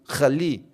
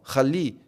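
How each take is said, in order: Both takes have the same delivery.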